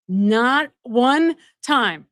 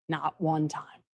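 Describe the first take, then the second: First: Slow, each word landed, stress on one; one punched, drawn slowly; slow emphasis. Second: Softer, throwaway not one time; one said low and quick; muttered aside. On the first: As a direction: hammer it home word by word. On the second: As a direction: drop it under the breath. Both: Shown as a demonstration. Emphatic repetition of the point.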